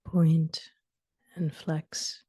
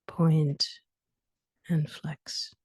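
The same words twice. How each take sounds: The two takes are said the same way.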